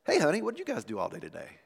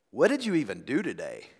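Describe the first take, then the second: First: Quick, softer, friendly honest question. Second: A touch of criticism in the question; critical. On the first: Husband coming home asking wife about her day, honest and warm. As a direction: ask it lightly and sincerely. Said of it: "the other is an honest question". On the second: Husband coming home to wife in messy house, critical. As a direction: ask it as a mild accusation. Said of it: "One is laced with criticism". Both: Acted.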